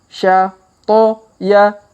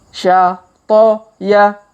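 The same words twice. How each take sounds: No difference in how they are said.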